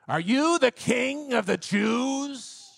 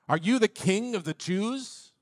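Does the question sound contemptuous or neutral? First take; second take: contemptuous; neutral. First: The question is asked with scorn and distaste. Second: The question is asked in a plain neutral tone.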